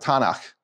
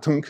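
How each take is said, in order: First: The word is said as two syllables. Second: The word is said as one short syllable. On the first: The speaker calls it right. "They pronounce it Tanakh" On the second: The speaker calls it wrong. "The Hebrews wouldn't pronounce it tunk"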